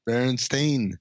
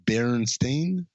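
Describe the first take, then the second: First: "Berenstain" with a long ay, not een; "Berenstain" ending in stain. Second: Slow, questioning "Berenstain" ending in "stain"; drawn-out "Berenstain" with a rising end; "Berenstain" said slowly. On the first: Settling the cartoon name debate, "Berenstain" ending like stain. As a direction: end "Berenstain" like the word stain. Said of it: "it's like a stain". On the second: Hosts correcting a cartoon name, saying "Berenstain" slowly. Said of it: "'Cause it's Stain, it's not Steen". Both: Shown as a demonstration.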